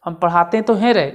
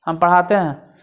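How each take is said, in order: First: पढ़ाते तो हैं रे, louder with तो hit; stress on तो. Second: Said in the usual way. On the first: Shown as a demonstration. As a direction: insist with तो. ("तो" पर ज़ोर देते हुए) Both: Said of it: "जोर दे के बोल रहा है".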